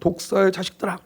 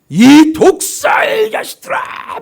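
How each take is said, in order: First: It is read calmly, without anger. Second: It is shouted angrily, with a scowl.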